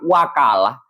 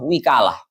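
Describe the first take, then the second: First: The first vowel is an a sound. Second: The first vowel is an i sound. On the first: "bisa dibaca fathah" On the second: "dibaca kasrah"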